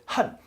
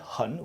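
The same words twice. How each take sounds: First: The syllable is in the fourth tone. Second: The syllable is not in the fourth tone. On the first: It means to hate. "Fourth tone there, fourth tone" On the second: It means very. "We just learned hun, which means very"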